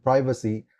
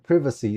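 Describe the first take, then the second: First: "privacy" with a long i, as in pry; American-style privacy. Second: "privacy" with a short i, as in privet; British-style privacy. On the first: Guest names the familiar word, "privacy" with long PRY. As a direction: say "privacy" as PRY-vuh-see. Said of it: "someone who knows the word". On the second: Guest quotes British exam speakers, "privacy" with short PRIV. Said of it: "when they say the word". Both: Shown as a demonstration.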